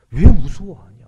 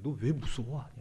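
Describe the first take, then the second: First: Loud, raised rebuke; Jesus. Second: Said in the usual way. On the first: Acted. Jesus challenging the disciples' fear, loud rebuke. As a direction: hit the question hard, much louder and higher. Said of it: "책망하십니다". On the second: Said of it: "예수님께서는".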